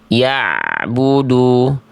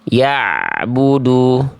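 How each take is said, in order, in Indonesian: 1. Bunyi ain sedikit mengalir ke bunyi berikutnya. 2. Bunyi ain sedikit mengalir ke bunyi berikutnya.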